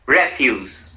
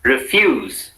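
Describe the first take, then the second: First: "refuse" as REF-yooss; strong REF at the start of refuse; stress on first syllable. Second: "refuse" as ri-FYOOZ; weak RE in refuse, stress on FUSE; stress on second syllable. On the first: Teacher models the noun for repetition, refuse stressed on REF. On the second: Teacher models the verb for repetition, refuse stressed on FUSE. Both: Shown as a demonstration. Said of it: "said in two different ways".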